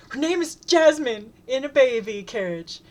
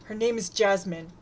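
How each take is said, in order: First: Much higher, louder yell of "Her name is Jasmine"; shout. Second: Firm, chin-up insistence on "Her name is Jasmine"; calmly defiant, correcting the name. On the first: Acted. Shouting over the chant. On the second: A narrator's reading. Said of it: "then says defiantly".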